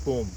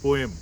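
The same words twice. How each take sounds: First: The word is said as one syllable. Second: The word is said as two syllables. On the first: This is the American way of saying it. "it is not poem" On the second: This is the British way of saying it. "it is poem, P O E M"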